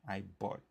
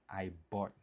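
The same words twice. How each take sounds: Both takes have the same delivery.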